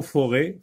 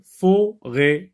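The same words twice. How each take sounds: First: Said in the usual way. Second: "Forêt" as high, loud fo... rêt; "fo", pause, "rêt", raised and emphatic; split into syllables. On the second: Shown as a demonstration. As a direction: break "Forêt" into two loud, separate syllables. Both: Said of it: "dans la deuxième syllabe".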